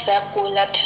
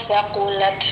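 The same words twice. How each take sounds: No difference in how they are said.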